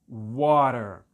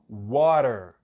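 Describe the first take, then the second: No difference in how they are said.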